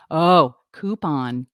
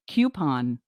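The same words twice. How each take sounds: First: "coupon" said slowly as koo-pon; drawn-out koo-pon; pron of coupon. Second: "Coupon" with a y glide, kyoo-pon; pron of coupon. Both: Shown as a demonstration. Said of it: "try and pronounce".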